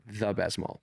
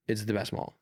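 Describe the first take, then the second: First: Slow, emphatic "the" before best mall; stress on "the". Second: Said in the usual way. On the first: Shown as a demonstration. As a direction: lean on "the" as the one and only. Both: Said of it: "like, the best mall".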